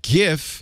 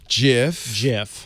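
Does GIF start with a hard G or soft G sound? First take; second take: hard G; soft G. First: It starts with a hard g sound. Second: It starts with a soft j sound. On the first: "with a hard G" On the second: "Soft G pronunciation"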